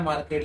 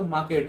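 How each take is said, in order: First: मार्केट with the r sounded, mar-ket; मार्केट said the wrong way with an r; r pronounced. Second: मार्केट with no r, maa-ket; मार्केट said correctly with the r silent. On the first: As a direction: say मार्केट rolling the r, the common slip. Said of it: "उसे मार्केट नहीं". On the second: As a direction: say मार्केट with a long aa and drop the r. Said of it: "आर इसमें silent रहता है". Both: Shown as a demonstration.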